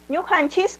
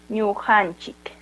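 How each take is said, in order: First: The word ends with an s sound. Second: The word ends with a k sound. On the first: "terminando con la S" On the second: "también puede ser Ñujanchik"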